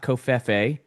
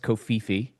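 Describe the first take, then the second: First: The middle syllable sounds like 'feh'. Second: The middle syllable sounds like 'fee'. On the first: The speaker calls it wrong. "not Kofefe. People pronounce it wrong" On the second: The speaker calls it right. "It's Kofifi"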